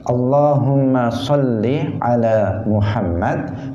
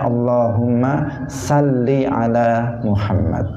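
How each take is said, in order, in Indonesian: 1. Bunyi s dalam 'sholli' itu tebal dan berat. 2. Bunyi s dalam 'sholli' itu tipis dan ringan.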